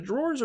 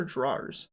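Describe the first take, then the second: First: "drawers" as one syllable, like "drorz"; first pronunciation option. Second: "drawers" with an "ah" vowel, like "drah-erz"; second pronunciation option. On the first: Streamer asking viewers which is right, "drorz" pronunciation. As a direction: say "drawers" to rhyme with "doors". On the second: Streamer asking viewers which is right, "drah-erz" pronunciation. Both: Shown as a demonstration. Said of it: "Is it drawers or drawers?".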